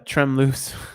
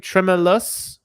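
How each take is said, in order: First: The name is pronounced with a French sound. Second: The name is pronounced like an English word. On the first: "it's French" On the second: "hopefully I said that right"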